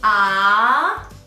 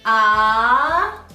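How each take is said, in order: First: The pitch rises from middle to high. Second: The pitch rises from middle to high.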